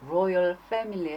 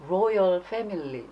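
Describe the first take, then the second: First: The word begins with an R sound. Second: The same.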